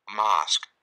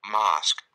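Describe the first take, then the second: The two takes are said the same way.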